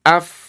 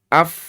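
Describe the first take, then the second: First: The f sound flows softly with continuous air. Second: The f sound flows softly with continuous air.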